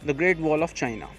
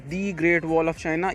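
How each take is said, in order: First: The first word sounds like a short 'thuh'. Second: The first word sounds like 'thee'. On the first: The speaker calls it right. "आप simple बोलिए and that is universally accepted" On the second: The speaker calls it wrong. "ये दोनों ही चीज़ें गलत हैं।"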